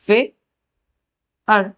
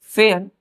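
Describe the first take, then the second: First: Put-on teacher stretching फेयर for children; drawn-out pronunciation demo. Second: Said in the usual way. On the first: Shown as a demonstration. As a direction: stretch फेयर very slowly, holding the "eyar" vowel. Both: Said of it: "ए का pronunciation क्या करेंगे हम लोग?".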